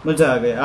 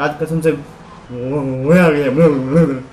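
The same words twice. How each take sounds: First: Said in the usual way. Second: Slow, stretched cry of joy; long, sung-out happy exclamation; drawn-out delight. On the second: Real, not acted. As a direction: savour every word of the thrill. Thrilled after a drift.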